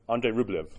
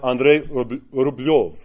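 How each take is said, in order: First: The name is said with an English pronunciation. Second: The name is said with a Russian pronunciation. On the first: This is how outsiders say the name. The speaker calls it wrong. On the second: This is how the name is said in its own language. The speaker calls it right. "in Russian, it was Andrei Rublev"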